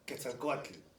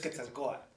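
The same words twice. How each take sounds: First: The T sound is pronounced in the name. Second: The T sound is left silent in the name. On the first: "my dad always pronounced Quetzalcoatl" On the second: "the T is silent. You don't pronounce it"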